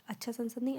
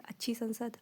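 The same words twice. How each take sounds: First: अच्छा संसद said as the wrong masculine form, then rejected; teacher shows the mistake with अच्छा संसद; wrong form shown. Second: Said in the usual way. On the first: Shown as a demonstration. शिक्षक गलत रूप अच्छा संसद दिखाते हुए.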